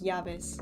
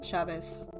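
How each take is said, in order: First: The double L sounds like an English y. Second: The double L sounds like English sh. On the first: This is the pronunciation used in Spain. "the double L as like y" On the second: This is the pronunciation used in Argentina. "it's more S H"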